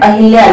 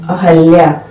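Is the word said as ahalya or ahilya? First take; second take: ahilya; ahalya. First: The second syllable has an i vowel. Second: The second syllable has an a vowel. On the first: The speaker calls it wrong. "हम लोग क्या बोलते हैं अहिल्या" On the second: The speaker calls it right. "लेकिन शुद्ध क्या होता है अहल्या"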